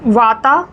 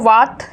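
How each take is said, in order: First: The word ends with an added final vowel. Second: The word ends on a bare consonant. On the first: This is the English-style form of the word. "English में लिखेंगे तो वाता ही ऐसे बोलेंगे" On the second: This is the usual native form of the word. "वरना तो वात"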